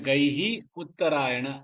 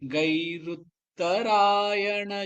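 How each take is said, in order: First: The two words are said separately. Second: The two words are joined into one. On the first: This shows the correct word division. "அதான் correct, அதான் அந்த பதச்சேதம்" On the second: This is how it is recited. "சேர்த்து சொல்லிடணும்"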